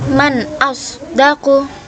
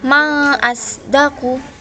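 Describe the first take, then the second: First: The n at the end of 'man' is clear. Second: The n at the end of 'man' is dropped. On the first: The speaker calls it right. "Jadinya ini dibaca jelas" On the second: The speaker calls it wrong. "bukan ma asdaku, bukan begitu"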